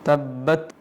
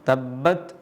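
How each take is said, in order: Both takes have the same delivery.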